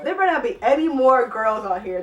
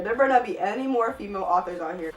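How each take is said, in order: First: Loud, annoyed warning; exasperated warning. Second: Said in the usual way. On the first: Real, not acted. Vlogger fed up with bad sex writing, loud warning. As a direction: declare it loudly, fed up with the excerpts. Annoyed reader warns about next excerpt.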